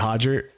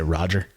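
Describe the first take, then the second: First: The name begins with an H sound. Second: The name begins with an R sound. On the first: "if you pronounce with the H" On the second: "if you pronounce American"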